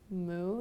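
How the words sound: It sounds confused and questioning.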